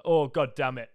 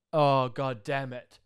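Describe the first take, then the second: First: Louder, clipped repeat of the groan; loud exasperated repeat; annoyed groan again. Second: Slow, drawn-out exasperated groan; loud fed-up mutter; annoyed groan. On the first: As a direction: spit it out fed up. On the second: Annoyed buddy quoted. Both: Retold or imitated.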